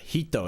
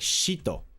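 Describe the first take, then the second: First: The word begins with a plain h sound. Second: The word begins with a hissing sh-like sound. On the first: "He's not even saying uh, hito" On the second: "It sounds like he's saying shito"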